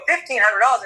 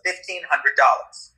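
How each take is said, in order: First: High, shocked repeat of the price; incredulous echo. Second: Said in the usual way. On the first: Retold or imitated. Customer echoing the vet's price, high incredulous question. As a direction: balk at the price in a raised voice. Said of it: "I go". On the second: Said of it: "She goes".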